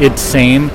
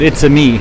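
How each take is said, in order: First: The title is said as two syllables. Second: The title is said as three syllables. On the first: The speaker calls it wrong. "I guess you could also pronounce it It's-same" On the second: The speaker calls it right. "It's-a-Me it seems much better"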